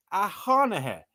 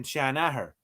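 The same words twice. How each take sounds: First: "Hanahir" with h in place of sh; copied app pronunciation. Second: "Shanahir" with sh, not a bare h; own pronunciation. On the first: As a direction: say "Hanahir" opening on a breathed h. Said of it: "I'm saying Shanahir". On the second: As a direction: say "Shanahir" opening on a sh sound. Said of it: "that's the way we speak". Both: Shown as a demonstration.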